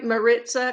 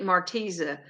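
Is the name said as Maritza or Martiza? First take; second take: Maritza; Martiza. First: The name is said with the r before the t. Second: The name is said with the t before the i. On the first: The speaker calls it right. "am I saying your name right" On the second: The speaker calls it wrong. "I've heard some people say it"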